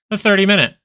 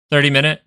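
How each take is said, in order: First: "thirty" hit high and loud; emphatic answer. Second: Said in the usual way. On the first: Shown as a demonstration. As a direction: announce "The thirty minute" like the reveal. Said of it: "emphatic answer".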